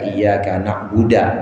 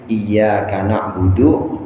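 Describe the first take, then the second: First: The last word ends with an 'a' vowel. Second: The last word ends with a 'u' vowel. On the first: The speaker calls it wrong. "dibaca iyyaka na'buda" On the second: The speaker calls it right. "seperti iyyaka na'budu"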